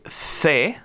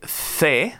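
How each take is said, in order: First: It is said in a Spanish (Spain) accent. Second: It is said in a Spanish (Spain) accent.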